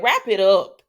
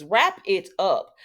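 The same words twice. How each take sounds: First: Loud, firm call to wrap it up; emphatic demand. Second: Slow, each word stretched; drawn-out plea. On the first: Vlogger telling the show to end a storyline, loud demand. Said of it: "Okay, I'm gonna say it". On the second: Vlogger begging the show to end a storyline, drawn-out plea. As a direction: plead slowly, leaning on every word. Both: Real, not acted.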